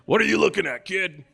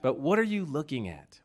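First: It is said in an aggressive, confrontational tone. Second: It is said in a gentle, sincere tone.

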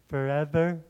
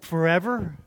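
First: It is said in a soft, pious tone. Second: It is said in a harsh, angry tone. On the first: A dutiful, reverent prayer. The speaker calls it wrong. "he doesn't say it in a religious way" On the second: A furious complaint at being ignored. The speaker calls it right. "He's super angry. He's like"

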